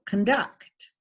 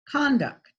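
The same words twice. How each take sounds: First: The stress is on the second syllable. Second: The stress is on the first syllable. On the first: "the stress is on the second syllable" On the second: "the stress is on the first syllable"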